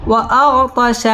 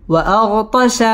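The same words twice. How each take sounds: First: Slower, sung tajweed reading of وأغطش; recited. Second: Said in the usual way. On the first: Shown as a demonstration. Teacher chanting the finished word for the student. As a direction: chant وأغطش with the vowel drawn out. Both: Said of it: "spelled-out word, then recited".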